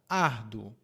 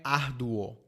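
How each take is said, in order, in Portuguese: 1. A vogal final é muito fraca e reduzida. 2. A vogal final é pronunciada completa e fortemente. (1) "Muito fraco" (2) "Não é árduo"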